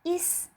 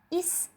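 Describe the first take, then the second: No difference in how they are said.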